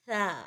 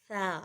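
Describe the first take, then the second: No difference in how they are said.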